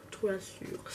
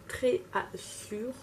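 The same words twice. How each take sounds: First: "Très Assure" retried softer and quicker in a French accent; second, quieter French-accented go at "Très Assure"; French-accented English retry. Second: "Très Assure" slowly sounded out with a French accent; halting English attempt. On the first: Vlogger correcting herself on an English shade name, quieter French accent. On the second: Vlogger struggling to read an English shade name, halting French accent. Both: Real, not acted. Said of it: "Moi et mon accent anglais".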